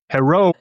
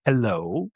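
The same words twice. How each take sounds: First: Put-on "Hello" said as "herro" in a Japanese accent; imitated Japanese accent. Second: Said in the usual way. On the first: Japanese gym-goer tries English on big foreigner, imitated Japanese accent. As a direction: mimic a Japanese accent, higher and louder, R for L. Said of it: "this one guy". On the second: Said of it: "And I said".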